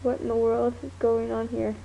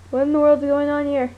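First: Said in the usual way. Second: Louder, fast exclamation; louder fast repeat. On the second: Shown as a demonstration. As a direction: blurt it out quickly and louder. Repeats the line louder, faster.

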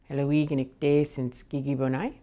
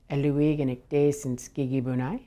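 Both takes have the same delivery.

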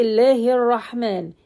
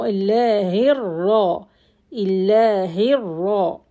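First: Illahir Rahman with one light r; wrong single ra. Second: Illahir ra with a held, doubled r. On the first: Teacher demonstrating the error students make, single ra. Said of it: "Don't say". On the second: Teacher correcting students, held double ra. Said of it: "I have double ra". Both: Shown as a demonstration.

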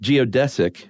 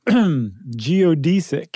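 First: Stressed DESS in "Geodesic"; "Geodesic" with short e. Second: Stressed DEE in "geodesic"; "geodesic" with long ee. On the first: Co-host answering with his version, "Geodesic" said geo-DESS-ick. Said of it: "And you say?". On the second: [name] showing his own version, "geodesic" said geo-DEE-sick. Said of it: "'Cause I, [name], say". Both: Shown as a demonstration.

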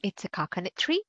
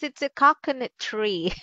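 First: Soft, quick question rising on "tree"; questioning echo. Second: "coconut" stressed, falling at the end; confirming statement. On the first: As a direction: echo it as a doubtful question, "tree" lifting at the end. Teacher queries the student's riddle answer. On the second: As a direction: confirm it as a statement, weight on "coconut", voice dropping on "tree". Teacher confirms the answer after reveal. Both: Real, not acted.

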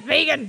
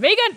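First: Said in the usual way. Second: High, loud burst of vegan; excited shout. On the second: Real, not acted. Joking exclamation.

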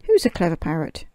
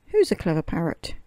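First: Louder, quick parrot chatter; hammed-up parrot squawking its phrase. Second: 1 parrot voice. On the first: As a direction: rattle it off like a loud parrot. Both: A narrator's reading. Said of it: "opened her beak and said".

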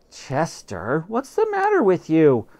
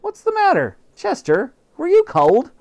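First: Spluttering. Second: High, loud doting mother voice; high fussing housewife; fussing mom. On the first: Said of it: "I spluttered". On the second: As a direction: coo at the cat like a worried mom. Mother fusses over the cat. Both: Acted.

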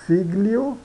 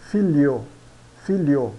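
First: FIGLIO with a hard G, "fig-lio", higher; read as spelt. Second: FILHO said "FEE-lyo", no G, falling; Italian pronunciation. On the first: Teacher shows learners the written word, G sounded. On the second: Teacher models Italian figlio, silent G. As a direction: glide the L into Y in filho. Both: Shown as a demonstration.

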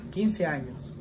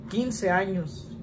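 Both takes have the same delivery.

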